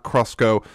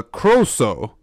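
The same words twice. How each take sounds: First: "Crosko" with a sk in the middle; mistaken Welsh word. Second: "Croso" with a plain s, no k; corrected Welsh word. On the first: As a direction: say "Crosko", wrongly sounding a k after the s. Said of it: "Or, no, no, not, not". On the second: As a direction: say "Croso" slowly, long first o. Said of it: "not, not Crosko". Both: Shown as a demonstration.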